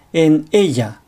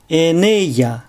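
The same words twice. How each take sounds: First: 'en ella' split as en-ELLA; word-initial glottal stop. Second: 'en ella' linked as e-ne-lla; linked syllables. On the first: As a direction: catch the throat before 'ella' in 'en ella'. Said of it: "単語の最初に正門閉鎖を入れる癖". (「en ella」の ella の前に声門閉鎖) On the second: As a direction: carry the n into 'ella' in 'en ella'. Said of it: "音節の区切りを正しくとって". (「en ella」を e-ne-lla とつなげて) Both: Shown as a demonstration.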